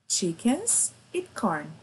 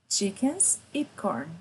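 No difference in how they are said.

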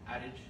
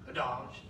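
First: The word is said the plain English way. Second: The word is said with a European-sounding pronunciation. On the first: "Is that how you say it?" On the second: "That sounds so much more European"

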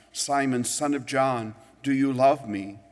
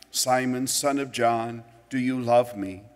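No difference in how they are said.

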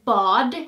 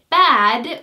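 First: It is said with a Swedish pronunciation. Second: It is said with an English pronunciation. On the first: It means bath. "or bad in Swedish" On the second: It means not good. "the word bad"

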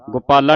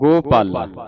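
First: The first vowel is not a clear 'o'. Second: The first vowel is a clear 'o'. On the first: The speaker calls it wrong. "ਗੋਪਾਲਾ ਨਹੀਂ ਪੜਨਾ" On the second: The speaker calls it right. "ਇੱਥੇ ਲੱਗਾ ਹੋੜਾ"

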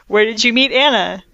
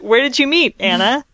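First: The words run on without a pause before Anna. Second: There is a pause before Anna. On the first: The question asks where the listener met Anna. The speaker calls it right. "It should say" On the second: The question is addressed to Anna herself. The speaker calls it wrong. "like she's talking to Anna"

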